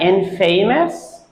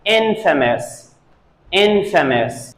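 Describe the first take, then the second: First: INFAMOUS said in-FAY-mus, questioning; wrong pronunciation. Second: INFAMOUS said IN-fuh-mus; correct pronunciation. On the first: Teacher asks whether students said it so, wrong pronunciation. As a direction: say infamous as if it were "in" plus "famous". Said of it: "that is a wrong pronunciation". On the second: Teacher models the word for students, correct pronunciation. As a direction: stress the first syllable of infamous, weak middle. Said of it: "They say it". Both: Shown as a demonstration.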